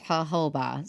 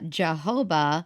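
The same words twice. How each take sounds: First: The word starts with an H sound. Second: The word starts with a J sound. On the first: "the correct way apparently, which is jojoba. So the J is just an H" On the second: "that's how we would say it"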